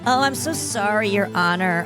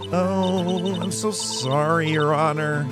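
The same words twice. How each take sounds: First: It is said in Miss May's voice. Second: It is said in the judge's voice.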